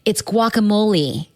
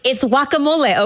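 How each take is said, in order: First: The word has an English-style pronunciation. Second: The word has a Spanish-style pronunciation. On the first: The speaker calls it wrong. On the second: This is how the word's originators say it. The speaker calls it right. "my people invented the word"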